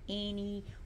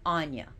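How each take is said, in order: First: The name is said like Annie. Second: The name is said as Anya. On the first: The speaker calls it wrong. "some people pronounce her Annie or Ain, but those are in totally one hundred percent incorrect" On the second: The speaker calls it right. "That is the correct pronunciation of this goddess's name"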